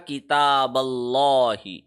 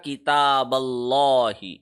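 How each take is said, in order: First: The L in Allah is heavy and thick. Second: The L in Allah is heavy and thick.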